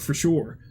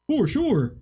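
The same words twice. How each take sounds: First: Said in the usual way. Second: Higher, sarcastic repeat of for sure; mocking echo. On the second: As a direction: echo it back with mock certainty.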